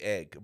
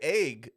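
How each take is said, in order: First: The vowel sounds like 'eh', as in 'bed'. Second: The vowel sounds like 'ay', as in 'day'. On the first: The speaker calls it right. "Now I say egg" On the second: The speaker calls it wrong. "like with an A instead of an E"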